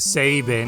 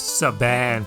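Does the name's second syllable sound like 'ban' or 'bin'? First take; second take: bin; ban. First: The second syllable sounds like 'bin'. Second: The second syllable sounds like 'ban'. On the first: The speaker calls it right. "I still said uh, Sabin as Saban" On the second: The speaker calls it wrong. "I just assumed it was Saban"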